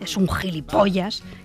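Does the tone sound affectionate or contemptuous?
contemptuous. It is said with a contemptuous, scornful tone. The person is truly despicable. "Yo en el primer caso visualizo a un tío chulo y asqueroso y repugnante"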